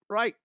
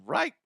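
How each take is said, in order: First: Said in the usual way. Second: Right? asked with a sharp high rise; questioning right. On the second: Shown as a demonstration. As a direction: toss out "right?" as a rising question.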